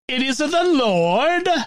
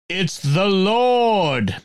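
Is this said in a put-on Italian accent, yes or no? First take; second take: yes; no. First: The line is said in a put-on Italian accent. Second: The line is said in the speaker's normal accent. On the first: The speaker calls it right. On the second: The speaker calls it wrong.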